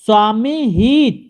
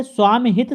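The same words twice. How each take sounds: First: स्वामी हित slow and drawn out, long "ee" sounds; wrong long vowels. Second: स्वामी हित joined up, with short "i" sounds; correct short vowels. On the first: Teacher sounds out the wrong compound, slow demonstration. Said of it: "स्वामी हित गलत है". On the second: Teacher gives the right compound, correcting. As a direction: keep स्वामी हित brief and compact. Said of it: "सही शब्द है". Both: Shown as a demonstration.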